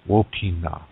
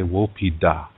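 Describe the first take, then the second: First: The final syllable begins with an n sound. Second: The final syllable begins with a d sound. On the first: This is the Nakota dialect form. "Nakota people" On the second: This is the Dakota dialect form. "Dakota people say Wopida"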